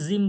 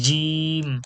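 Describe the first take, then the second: First: The j sound is soft and loose. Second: The j sound is hard and pressed. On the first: The speaker calls it wrong. "জিম জিম বললে হবে না" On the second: The speaker calls it right. "এইভাবে বলতে হবে জিভের মাঝখান থেকে"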